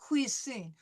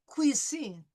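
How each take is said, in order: No difference in how they are said.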